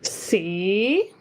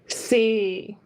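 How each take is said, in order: First: Tone two, a different pitch contour. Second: Tone four, with a very low dropping pitch. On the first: "Second tone C" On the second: "Tone four C. Very low"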